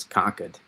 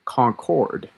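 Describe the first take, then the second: First: Concord said as CONK-id, the R dropped; local Massachusetts pronunciation. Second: Concord slowly as CON-CORD, both syllables full; full-syllable pronunciation. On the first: Forecaster telling viewers how locals say it, Concord as CONK-id. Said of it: "that's how you say it". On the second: Forecaster showing the non-local way, Concord as a full CON-CORD. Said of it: "you could say it's a Concord". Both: Shown as a demonstration.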